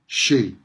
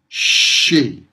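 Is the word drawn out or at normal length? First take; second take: normal; drawn out. First: The sounds have their usual everyday length. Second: The sounds are stretched out longer than usual. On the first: "in everyday pronunciation" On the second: "I'm making the sounds longer than they usually are"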